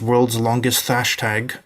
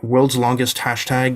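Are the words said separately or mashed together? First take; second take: mashed together; separately. First: The words are run together, misreading the t-h. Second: The words are said separately and normally. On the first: The speaker calls it wrong. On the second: The speaker calls it right.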